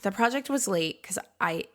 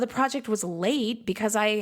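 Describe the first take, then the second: First: It is said in a hesitant, apologetic tone. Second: It is said in a flat, matter-of-fact tone. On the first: The speaker feels sorry about the delay. "I'm really sorry. Ooh" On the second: The delay is simply explained. "That's a totally different tone and affect than"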